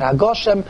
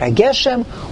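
First: The vowel after the g is 'o'. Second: The vowel after the g is 'e'. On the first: "or you can say Mashav Ruach HaMorad HaGoshem" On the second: "You can say Mashav Ruach HaMorad HaGeshem"

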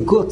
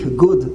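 First: It is said the Yiddish way, not ending in D. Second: It is said the English way, ending in D. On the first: "many people say good, that's Yiddish" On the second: "Some say good with a D, good. That's English"

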